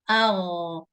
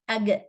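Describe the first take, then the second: First: The consonant is a continuous throaty rasp. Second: The consonant is a hard G stop. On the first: The speaker calls it right. "Say agh" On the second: The speaker calls it wrong. "like a G sound as in goat"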